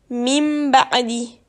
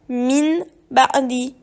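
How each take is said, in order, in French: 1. Le premier mot se termine par un son m. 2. Le premier mot se termine par un son n. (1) "Il faut lire mim ba'di" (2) "Il ne faut surtout pas lire min ba'di"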